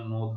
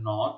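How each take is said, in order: First: নোদ with a closed o, like 'nod'; teacher demos the wrong নোদ; wrong closed o vowel. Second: Said in the usual way. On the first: Shown as a demonstration. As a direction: say নোদ with a rounded o instead of the open অ. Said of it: "নোদ হবে না". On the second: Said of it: "তার উচ্চারণ স্বাভাবিক হচ্ছে".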